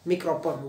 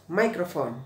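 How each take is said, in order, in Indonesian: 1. Kata itu dibaca dengan bunyi gaya Indonesia. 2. Kata itu dibaca dengan bunyi gaya Inggris. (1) "sering dengarnya mikrofon" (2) "microphone bacanya"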